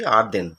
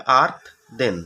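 First: Said in the usual way. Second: "আর্থ দেন" split in two parts with a gap; teacher breaking "আর্থ দেন" into two separate syllables; broken into syllables. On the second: Shown as a demonstration. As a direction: say "আর্থ দেন" part by part, pausing after আর্থ. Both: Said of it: "ভাঙলে কি হবে?".

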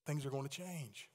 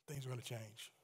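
First: Said in the usual way. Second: Soft echo. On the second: Shown as a demonstration. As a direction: echo the line much softer, almost to yourself.

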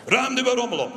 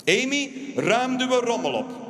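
First: Higher, louder firm order; firm order to a child; stern dad. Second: Slow, higher, firm order; slow firm order to a child; stern dad. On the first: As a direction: repeat the order firmly. Father ordering again. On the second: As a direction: lay down the law to the kid. Father ordering daughter. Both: Acted.

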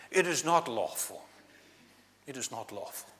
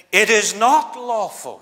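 First: Mock posh accent. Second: Loud, slow, lofty posh voice; a hint of a snooty posh Pharisee; posh accent. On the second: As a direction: look down your nose at it. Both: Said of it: "putting on that posh accent".

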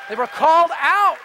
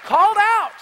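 First: Rising preacher emphasis on called out; they were called out, pressing harder; building emphasis. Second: Much higher, louder cry of called out; called out, at the top of the voice; preaching shout. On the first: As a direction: lean into out with growing force. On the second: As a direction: ring it out to the back row. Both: Acted. Sermon climax, repeated phrase.

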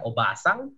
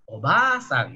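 First: "obasang" low and brief, short a. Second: "obasang" with "baa" drawn out; long a. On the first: Teacher gives the word for aunt, short a in "obasang". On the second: Teacher gives the word for grandmother, long a in "obasang". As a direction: hold the first a after b in "obasang". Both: Shown as a demonstration. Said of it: "vokal panjang".

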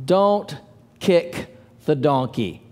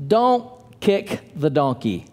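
First: "Don't" set apart, then "kick the donkey" slow and low; slow with a pause after Don't. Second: Said in the usual way. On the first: Shown as a demonstration.

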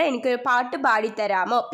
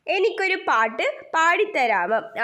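First: Said in the usual way. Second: Higher-pitched story-character voice, lightly acted; confiding request. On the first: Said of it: "പട്ടൂസ് ചോദിക്കുകയാണ് മേടക്കാറ്റിനോട്". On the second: Kite asks the wind for a song, lightly voiced confiding request. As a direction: ask a little favour in a higher voice, rising at the end. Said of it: "ഒരു സ്വകാര്യം മേടക്കാറ്റിന്റെ കാതിൽ പറഞ്ഞു".

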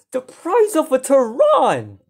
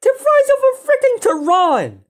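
First: Slow, drawn-out exclamation; emphatic amazement. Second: Very high excited cry; astonished outburst. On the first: Gamer compares the price for viewers, slow amazed emphasis. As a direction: stretch out the comparison in wonder. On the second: Gamer hammers home the price, high astonished outburst. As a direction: repeat it at peak amazement. Repeats price comparison, more worked up. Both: Real, not acted.

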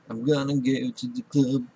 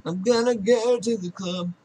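First: Playful low voice, dropped below usual; low put-on voice. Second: Playful voice pitched up high; high put-on voice. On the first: Player announcing a club trip, low put-on voice. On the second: Player announcing a club trip, high put-on voice. Same line again, pitched up.

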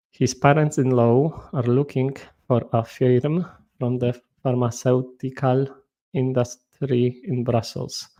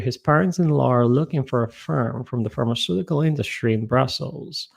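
First: English read with a thick Polish accent; mild Polish-accented English; typical Polish accent. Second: English read in a careful American accent; teacher's American-accented demo. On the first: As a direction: read it the way a Polish student would. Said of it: "zawsze czytam w typowym akcencie polskim". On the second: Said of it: "poprawnie przeczytane zdanie w akcencie amerykańskim". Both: Shown as a demonstration.

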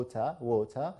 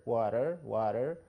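First: Water said British, no r, "wota"; water with a dropped r and a flat t. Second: Water said American, tapped t and a clear r, "warer"; water with a flapped t and a final r. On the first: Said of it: "في البريتش انجلش ما بننطقش الاي ار". (water بنطق بريطاني من غير الـ r) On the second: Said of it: "في الامريكان انجلش بنقول water". (water بنطق أمريكاني بحرف r واضح) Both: Shown as a demonstration.

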